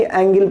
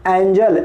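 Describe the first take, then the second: First: एंगल with a hard "g", not "j"; wrong hard-g reading. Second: एंजल with a "j" sound for the g; soft g reading. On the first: Teacher warns students off the misreading, hard g in एंगल. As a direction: pronounce एंगल with "g" as in go. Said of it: "ना कि एंगल पढ़ेंगे". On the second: Teacher sums up the spelling for students, j sound in एंजल. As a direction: pronounce एंजल with soft g, ending "-jel". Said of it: "तो क्या बन गया". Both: Shown as a demonstration.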